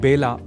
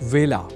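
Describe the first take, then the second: First: The word begins with a b sound. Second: The word begins with a v sound. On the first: The speaker calls it wrong. "इसे बेला नहीं बोला जाना चाहिए" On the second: The speaker calls it right. "व का कई बार ब के रूप में उच्चारण करना अशुद्ध होता है"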